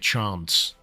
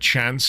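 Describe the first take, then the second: First: It is said in a Southern English accent. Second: It is said in a Northern English accent. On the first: "he didn't say chance" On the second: "I know he's definitely a Northern English voice actor, because when he said chance"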